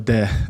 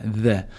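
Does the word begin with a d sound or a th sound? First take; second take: d sound; th sound. First: The word begins with a d-like sound. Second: The word begins with a soft th sound. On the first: The speaker calls it wrong. "some people might say over there, especially if you're from my background" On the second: The speaker calls it right. "the correct pronunciation is like there"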